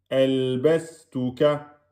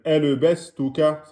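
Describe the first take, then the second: First: The consonants are held for one and a half beats. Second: The consonant is released with a short bounce. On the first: The speaker calls it right. "vous restez un temps et demi sur le lem et le sin" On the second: The speaker calls it wrong. "ne dites pas qalqala sur le lem. ... C'est faux"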